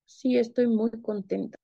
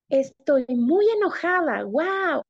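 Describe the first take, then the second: First: Mismatched happiness. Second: Mismatched anger. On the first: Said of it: "tampoco coincide". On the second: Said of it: "no coincide la forma en la que estoy hablando". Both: Shown as a demonstration.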